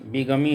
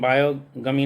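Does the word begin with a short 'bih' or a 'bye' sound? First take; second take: bih; bye. First: The first syllable sounds like a short 'bih'. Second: The first syllable sounds like 'bye'. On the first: The speaker calls it right. "बीगमी होता है" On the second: The speaker calls it wrong. "इसका उच्चारण बायोगमी नहीं होता है"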